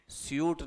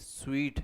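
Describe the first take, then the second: First: The word is said like 'syoot'. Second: The word is said like 'sweet'. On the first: The speaker calls it wrong. "स्यूट नहीं है" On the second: The speaker calls it right. "स्वीट है"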